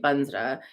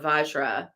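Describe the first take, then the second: First: It is said in the Tibetan pronunciation. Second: It is said in the non-Tibetan pronunciation.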